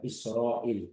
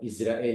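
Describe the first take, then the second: First: The consonant after the first vowel is an s. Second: The consonant after the first vowel is a z. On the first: This is how the Quran says it. The speaker calls it right. "Bukan pakai Zai" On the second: This is the Malay-accented way of saying it. The speaker calls it wrong. "Bukan Israel"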